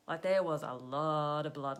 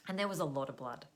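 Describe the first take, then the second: First: "blood" pushed out louder, insisting; louder, leaning hard on "there" and "blood"; emphatic repeat. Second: Said in the usual way. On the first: Shown as a demonstration. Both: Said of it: "let me tell you".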